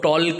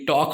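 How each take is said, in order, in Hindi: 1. शब्द में एल की ध्वनि बोली जाती है। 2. शब्द में एल की ध्वनि नहीं बोली जाती। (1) "अब इसको टॉल्क नहीं बोलेंगे, कई लोग बोलते हैं।" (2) "ये टॉक होगा"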